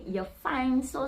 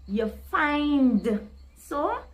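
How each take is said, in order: First: The d at the end of 'find' is dropped. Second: The d at the end of 'find' is pronounced. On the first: This is how Trinidadian people say it. "They would say, ... So the D just drop and cut off" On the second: This is the speaker's own usual way. "So I would say"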